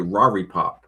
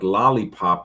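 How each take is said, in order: First: It is said with Chinese-accented R-like sounds. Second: It is said with standard English L sounds.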